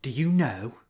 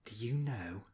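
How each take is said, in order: First: Said in the usual way. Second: Murmured. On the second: A narrator's reading. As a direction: mutter it under the breath. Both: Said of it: "he murmured twice".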